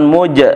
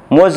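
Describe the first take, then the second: First: The syllable ends with a j sound. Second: The syllable ends with a buzzing z sound. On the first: The speaker calls it wrong. "bukan muj" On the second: The speaker calls it right. "Muz bukan muj"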